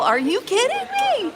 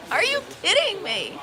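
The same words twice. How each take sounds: First: Very high, disbelieving are you kidding me; incredulous. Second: Laughing. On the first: To the thief who wants a quarter back, high incredulous disbelief. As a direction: shriek the question in disbelief. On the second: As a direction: laugh it out in disbelief. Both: Retold or imitated. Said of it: "I was like".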